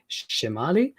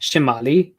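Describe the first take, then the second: First: Shimali starting low on "shi", then rising; "shimali" with the low on its first syllable; low tone at beginning. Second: Shimali dipping low on "ma", rising after; "Shimali" with a low accented "ma"; low tone on middle syllable. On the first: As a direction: open "shimali" low and climb through it. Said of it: "having a low at the beginning". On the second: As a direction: drop the pitch on the middle of "Shimali". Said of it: "that's where the low tone is". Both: Shown as a demonstration.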